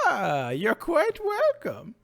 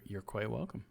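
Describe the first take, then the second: First: It is said in a put-on wizard voice. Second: It is said in his normal voice.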